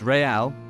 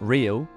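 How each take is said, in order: First: It is said as two syllables, re-al. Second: It is said as one syllable, like English real. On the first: The name echoes big continental football clubs. The speaker calls it right. "It's pronounced Real" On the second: The name is read as the ordinary English word. The speaker calls it wrong. "not real"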